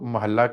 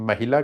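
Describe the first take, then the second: First: The l sound is doubled and held. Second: An i vowel comes after the h. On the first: "ਜੇ ਅੱਧਕ ਲੱਗਾ ਹੁੰਦਾ ਮਹੱਲਾ ਹੁੰਦਾ" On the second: "ਜੇ ਸਿਹਾਰੀ ਲੱਗੀ ਹੁੰਦੀ ਮਹਿਲਾ ਹੁੰਦਾ"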